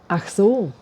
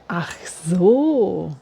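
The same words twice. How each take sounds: First: It is said with an understanding intonation. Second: It is said with a surprised intonation. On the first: The listener now understands. "to give the idea of understanding" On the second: The listener is surprised by the news. "Or of surprise"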